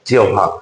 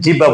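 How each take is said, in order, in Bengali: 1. মাঝের অংশে 'u' glide ধ্বনি আছে। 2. মাঝের অংশে সাধারণ 'b' ধ্বনি আছে। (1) "এটার উচ্চারণটা হচ্ছে জিহ্বা" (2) "যখন তুমি ছোট ছিলে এটাকে তুমি জিহ্বা বলছিলে, কিন্তু এটা আসলে জিহ্বা না"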